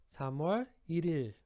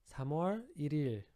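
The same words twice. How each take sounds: Both takes have the same delivery.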